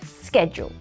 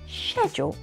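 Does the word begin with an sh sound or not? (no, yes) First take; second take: no; yes. First: The word does not begin with an sh sound. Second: The word begins with a soft sh sound. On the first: This is the American way of saying it. "But in America, they say schedule" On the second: This is the British way of saying it. "In Britain, they say schedule with a soft sh sound"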